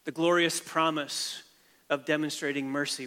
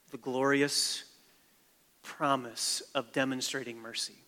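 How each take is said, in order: First: Glorious leaned on with a falling tune, the phrase slowed; stress on glorious. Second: Said in the usual way. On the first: Shown as a demonstration. Repeats the key phrase for emphasis.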